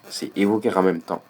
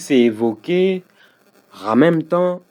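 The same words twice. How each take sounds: First: The words run together quickly with liaison. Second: A pause breaks the words, with no liaison. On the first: The speaker calls it right. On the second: The speaker calls it wrong.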